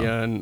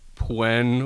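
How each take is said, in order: First: The name begins with a 'py' sound. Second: The name begins with a 'pw' sound. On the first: The speaker calls it right. "Pyun. Okay" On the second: The speaker calls it wrong. "I didn't know if it was like Pwen"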